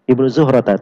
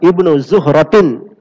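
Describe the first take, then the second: First: The name ends with an -a sound. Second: The name ends with an -in sound. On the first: This is the normal grammatical form. "Harusnya begitu ya" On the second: The ending is changed to fit the rhyme of the poem. "karena ikut qafiyah harus dibaca Zuhratin"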